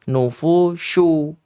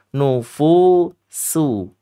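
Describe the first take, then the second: First: The middle consonant is an sh sound. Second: The middle consonant is a thin s sound. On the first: The speaker calls it wrong. "adik-adik kadang ada yang sering tertukar di sini" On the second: The speaker calls it right. "Padahal nufusu. Sin ya. Tipis saja"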